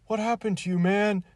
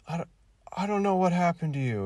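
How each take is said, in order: First: High, loud mock-pathetic wail. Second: High, loud mock-pathetic line; pathetic delivery. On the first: Mocking the Star Wars actor's line, high and pathetic. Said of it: "he does it in a more, like, pathetic way". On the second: Mocking a bad actor's delivery, high and pathetic. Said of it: "pathetic way".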